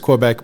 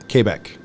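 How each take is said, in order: First: The name is said with an English pronunciation. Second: The name is said with a French pronunciation. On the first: "in English it's Quebec" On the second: "the way we would pronounce it in French in Canada would be Quebec"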